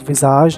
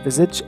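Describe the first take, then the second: First: The word is said with French pronunciation. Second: The word is said with English pronunciation. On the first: The speaker calls it right. "the game is actually called Visage" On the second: The speaker calls it wrong. "not Visage"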